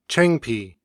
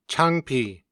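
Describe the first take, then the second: First: "chengpi" with a fronted e vowel; Gyeonggi dialect word. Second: "Changpi" with an open a; standard Korean word. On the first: Narrator reading the Gyeonggi word second, citation style. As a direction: shift the a to e in "chengpi". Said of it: "then the word with the Gyeonggi dialect". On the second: Narrator reading the standard word first, citation style. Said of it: "I will read the standard Korean word". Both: Shown as a demonstration.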